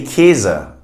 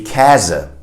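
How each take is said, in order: First: Käse said like kehse; Käse, closed e; everyday Ä as E. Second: Käse with an open A sound; textbook Ä. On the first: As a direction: say Käse with a plain E. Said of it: "we just say Käse as if it were two E's". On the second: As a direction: say Käse with a broad ae. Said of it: "You'd have to say Käse". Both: Shown as a demonstration.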